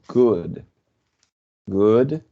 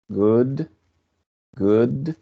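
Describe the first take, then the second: The two takes are said the same way.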